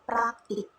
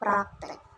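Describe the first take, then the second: First: The second vowel is an 'i' sound. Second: The second vowel is an 'e' sound. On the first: The speaker calls it right. "yang benar harusnya pakai i" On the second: The speaker calls it wrong. "bukan praktek"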